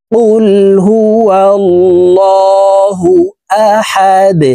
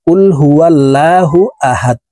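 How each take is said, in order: First: কুল হুয়াল্লাহু আহাদ slow and higher, with a heavy drawn-out ল; correct recitation. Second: কুল হুয়াল্লাহু আহাদ said quickly, with a short flat ল in আল্লাহ; wrong recitation. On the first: Teacher reciting the corrected verse for viewers, slow melodic chant. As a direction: intone কুল হুয়াল্লাহু আহাদ slowly, thickening the ল. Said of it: "এইভাবে পড়ব". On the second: Teacher showing viewers the common wrong reading, hurried and unlengthened. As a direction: rattle off কুল হুয়াল্লাহু আহাদ carelessly, without lengthening. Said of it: "আমরা অনেকে এইভাবে পড়ে থাকি".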